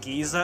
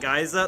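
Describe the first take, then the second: First: The word is said the British way. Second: The word is said in a non-British way. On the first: "voiced by British actors. And they pronounce it Giza" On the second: "I always pronounced it Geyser"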